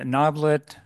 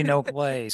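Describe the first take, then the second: First: "Noblet" as others misread it; louder "Noblet", offered as a common mistake; mispronunciation demo. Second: "Noblet" as its owner says it; correct pronunciation. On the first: Chair lists botched versions of own surname, "Noblet" mispronounced. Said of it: "very few people get the connect-, correct pronunciation". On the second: Chair gives the rarely heard right surname, "Noblet" pronounced correctly. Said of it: "correct pronunciation of my last name". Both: Shown as a demonstration.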